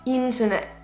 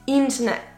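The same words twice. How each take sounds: The two takes are said the same way.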